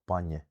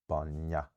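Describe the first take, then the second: First: The final vowel sounds like the i in bin. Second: The final vowel sounds like an open a. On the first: The speaker calls it right. "if it's an I or an E unstressed, it comes more as an I" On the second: The speaker calls it wrong. "they often replace it with an A"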